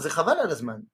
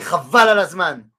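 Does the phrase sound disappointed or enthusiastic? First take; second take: disappointed; enthusiastic. First: It is said with a let-down, disappointed tone. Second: It is said with an excited, enthusiastic tone. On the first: Something is a waste of time. "si je dis « Lo, Zechaval alazman », ça veut dire « C'est une perte de temps »" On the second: Something is amazing. "si je le dis dans le sens « Ouai, Chaval alazman », ça veut dire « C'est génial »"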